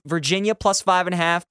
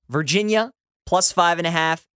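First: It is said at a normal quick pace. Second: It is said slowly and deliberately.

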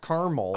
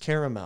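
First: The word is said with two syllables. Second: The word is said with three syllables. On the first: The speaker calls it wrong. "You're not just adding an R to the word camel. ... It's not caramel" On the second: The speaker calls it right. "It's caramel"

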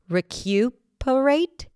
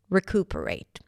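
First: A 'y' glide follows the 'k' sound. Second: No 'y' glide follows the 'k' sound. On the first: "Some people might pronounce it with a y" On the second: "you can just drop it and say recuperate. That's how I say it"

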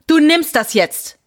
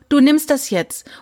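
First: It is said in a hard, aggressive tone. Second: It is said in a milder, insisting tone.

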